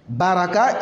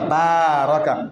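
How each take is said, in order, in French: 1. La première voyelle est courte. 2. La première voyelle est longue. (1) "il s'est assis" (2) "il faut tirer le bas. Baraka, il a béni"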